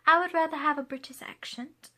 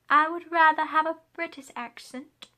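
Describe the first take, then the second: First: Said in the usual way. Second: Mock British accent, higher pitched. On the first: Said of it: "Would you rather have an American accent or a British accent?". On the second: Shown as a demonstration. Answering the accent question in a British accent. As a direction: put on a playful British accent. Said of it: "I was so not ready for that".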